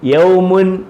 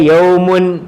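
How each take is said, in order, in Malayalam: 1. ഈ വാക്ക് അവസാനം -un എന്ന അന്ത്യത്തോടെ അവസാനിക്കുന്നു. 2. ഈ വാക്ക് അവസാനം -un എന്ന അന്ത്യത്തോടെ അവസാനിക്കുന്നു.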